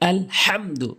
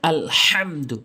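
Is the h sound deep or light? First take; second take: deep; deep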